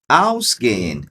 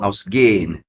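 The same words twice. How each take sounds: First: The stress is on the first syllable. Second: The stress is on the second syllable. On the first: The speaker calls it right. "a ênfase na pronúncia na partícula" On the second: The speaker calls it wrong. "e não"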